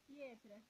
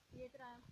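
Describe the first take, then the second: First: Said in the usual way. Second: Breathy high whisper of Pietra; a soft high whispered call of Pietra; high whispered name. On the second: Acted. Calling the baby's name.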